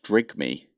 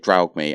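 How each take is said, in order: First: The first syllable has an 'i' vowel. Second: The first syllable has an 'aw' vowel. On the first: The speaker calls it right. "it's supposed to be pronounced drig me" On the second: The speaker calls it wrong. "but I always say draug me"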